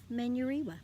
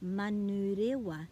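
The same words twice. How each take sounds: First: It is said with anglicized English vowels. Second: It is said with clear Māori vowels. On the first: The speaker calls it wrong. "instead of" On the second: The speaker calls it right. "pronounce our Māori place names ... correctly"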